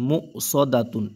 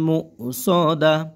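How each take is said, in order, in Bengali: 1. শব্দটি পূর্ণ 'tun' ধ্বনি দিয়ে শেষ হয়। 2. শব্দটি নরম 'h' ধ্বনি দিয়ে শেষ হয়। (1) "তাদু পেশ তুন মু সদাতুন" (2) "অক্ফের কারণে কি হবে এই তাটা হা হয়ে যাবে"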